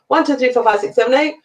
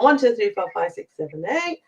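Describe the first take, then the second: First: The counting is faster. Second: The counting is slower.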